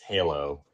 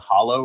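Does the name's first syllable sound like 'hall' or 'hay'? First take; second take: hay; hall. First: The first syllable sounds like 'hay'. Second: The first syllable sounds like 'hall'. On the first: The speaker calls it right. "It's Halo" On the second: The speaker calls it wrong. "I've been told by my producer I'm mispronouncing it"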